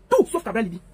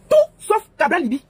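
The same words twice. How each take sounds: First: Said in the usual way. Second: Higher and louder, hammered home; emphatic slogan. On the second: Real, not acted. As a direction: bang the slogan out. Campaign slogan hammered repeatedly.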